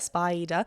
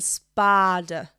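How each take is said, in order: First: The first vowel glides from ah to ee. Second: The first vowel stays on ah without gliding. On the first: "how would you say spider?" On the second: "Ellie's kind of going spada"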